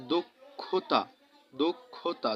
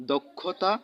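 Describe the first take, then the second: First: দুক্ষুতা with u after d and after kh, dukkhuta; pronounced dukkhuta. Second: Said in the usual way. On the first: Shown as a demonstration. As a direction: say দুক্ষুতা as duk-khu-ta. (উ-কার দিয়ে দুক্ষুতা উচ্চারণ) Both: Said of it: "খ এর সাথে উকার উচ্চারিত হয়েছে".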